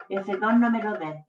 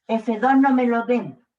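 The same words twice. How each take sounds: First: Said in the usual way. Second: "F dos no me lo den" said louder, leaning on "no"; emphatic repeat. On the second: Shown as a demonstration. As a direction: stress the word "no" in "F dos no me lo den" firmly.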